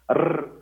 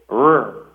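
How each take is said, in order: First: The R is rolled. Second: The R is an American-style R.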